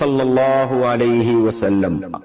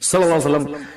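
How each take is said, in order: First: The phrase is said fully with every sound articulated. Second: The phrase is said quickly with sounds clipped short. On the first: The phrase is said with proper respect. The speaker calls it right. "तो जब दुरूद पढ़े" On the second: The speaker is trying to save time. The speaker calls it wrong. "यहां भी जो शॉर्ट कर देते हैं ना"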